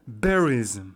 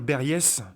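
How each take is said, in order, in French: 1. La dernière syllabe est clairement prononcée. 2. La dernière syllabe est à peine prononcée. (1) "il faut prononcer la finale" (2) "faut pas dire berries"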